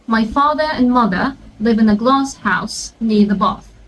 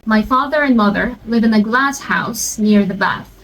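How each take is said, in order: First: It is said in a British accent. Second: It is said in an American accent.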